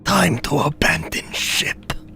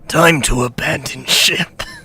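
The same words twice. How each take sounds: First: It is said in a put-on villain voice. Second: It is said in his normal speaking voice.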